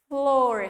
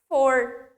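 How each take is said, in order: First: The word is said with both f and l. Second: The word is said without the l sound. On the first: The speaker calls it right. "pronunciar o F e o L" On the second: The speaker calls it wrong. "se eu deixo só com o F"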